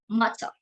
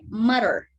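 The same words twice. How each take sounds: First: It is said in a British accent. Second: It is said in an American accent. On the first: "In British, it's pronounced as matter" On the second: "but in American, it's pronounced as"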